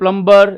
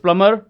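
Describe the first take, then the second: First: The b sound is pronounced after the m. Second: The b sound is silent after the m. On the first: The speaker calls it wrong. "Don't say प्लम्बर" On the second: The speaker calls it right. "It's प्लमर"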